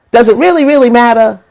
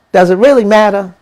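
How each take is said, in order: First: Really, really pushed higher and louder; stress on really. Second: Said in the usual way. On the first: Real, not acted. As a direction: lean hard on each really. Repeats question with more force.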